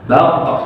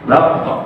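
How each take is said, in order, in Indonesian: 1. Huruf q di akhir berakhir dengan pantulan ringan yang netral. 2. Huruf q di akhir berakhir dengan pantulan ringan yang netral.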